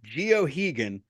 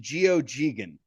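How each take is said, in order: First: The middle G sound is left out. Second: The middle G is said as a soft sound. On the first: "that second G is silent" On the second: "there is the G there but it's soft"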